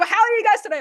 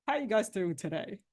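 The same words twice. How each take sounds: First: High and loud, full of energy; energetic greeting. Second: Soft, deflated, no energy; low-energy greeting. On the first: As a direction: greet them with a big burst of energy. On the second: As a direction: greet them like you'd rather not be here. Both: Shown as a demonstration. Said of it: "Same words".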